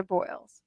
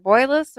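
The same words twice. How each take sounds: First: Put-on "Boyles" said as one syllable, BOYLZ; one-syllable guess. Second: Put-on "Boyles" said in two syllables, BOY-less; two-syllable guess. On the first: Host checks the author's surname, "Boyles" as one-syllable BOYLZ. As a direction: rhyme "Boyles" with oils. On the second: Host checks the author's surname, "Boyles" as BOY-less. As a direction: stretch "Boyles" into BOY-luhs. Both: Shown as a demonstration. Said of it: "is it Boyles or Boyles".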